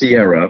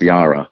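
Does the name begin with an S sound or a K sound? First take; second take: S sound; K sound. First: The name sounds like Sierra, starting with S. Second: The name does not sound like Sierra. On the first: Other people insisted on this pronunciation. "which would be S-I-E-R-R-A" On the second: This follows the written spelling of the name. "the way this is written, the pronunciation is Ciara"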